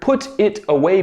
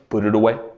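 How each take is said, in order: First: The words are said separately and carefully. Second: The words run together like one word.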